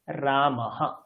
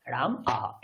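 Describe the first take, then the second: First: "রামাহা" run together as one word, "হা" at the end; joined pronunciation. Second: "রাম আহা" with a break between "রাম" and "আহা"; split into parts. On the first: Teacher joining the parts for students, blended. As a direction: blend "রাম" and "আহা" into one smooth "রামাহা". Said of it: "যোগ করে দেন, কি হবে?". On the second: Teacher breaking the word apart for students, separated. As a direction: say "রাম", pause, then "আহা". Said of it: "শব্দটা এরকম করে লিখতে পারি". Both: Shown as a demonstration.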